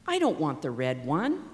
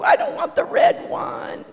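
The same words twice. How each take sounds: First: It is said in a calm, grown-up voice. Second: It is said in a whiny child's voice.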